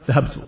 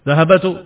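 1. Tidak ada vokal yang diucapkan di antara b dan t. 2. Ada vokal yang diucapkan di antara b dan t. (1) "maka mereka akan mengatakan zahabtu" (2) "itu tidak bisa mereka atau tidak biasa"

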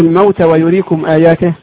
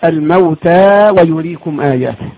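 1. حرف المد يُقصَر. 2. حرف المد يُمَد طويلاً. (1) "إيه رأيكم في" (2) "أما الألف لابد نقول"

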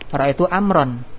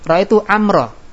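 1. Namanya berakhir dengan vokal lalu n. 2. Namanya berakhir dengan vokal a biasa. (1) "Kalau enggak diwaqaf bacaannya" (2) "Jadi kalau dibaca waqaf, waqaf itu huruf terakhir enggak dibaca ya"

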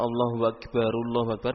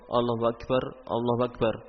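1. Akbar yang pertama langsung tersambung ke kata berikutnya. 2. Akbar yang pertama diakhiri dengan berhenti sebelum kata berikutnya. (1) "berarti disambung"

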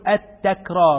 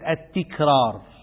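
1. الحركة بعد أول تاء هي 'a'. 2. الحركة بعد أول تاء هي 'i'. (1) "نقول التكرار ... بفتح التاء" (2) "وليست التكرار ... وليس بكسرها"

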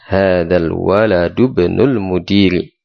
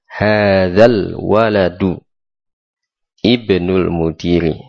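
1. Waladu langsung tersambung ke bnul, vokalnya hilang. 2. Waladu dan ibnul diucapkan terpisah, vokalnya dibaca. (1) "Jadi dalnya bersambung dengan ibnu" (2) "maka tadi saya baca terpisah"

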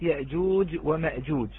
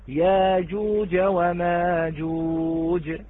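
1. تُسمع همزة قبل كل صوت j. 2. يحل مدُّ الألف الطويل محل الهمزة. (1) "أبدل من الساكن كلمة يأجوج ومأجوج" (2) "فقرأها ورش"

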